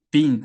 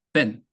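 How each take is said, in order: First: Been with a long ee; long vowel been. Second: Been with a clipped short e; short vowel been. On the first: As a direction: stretch the ee in been. (been을 길게 "비인"처럼) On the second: (been을 짧게 "벤"처럼) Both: Shown as a demonstration. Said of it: "제가 어떻게 읽고 있나요".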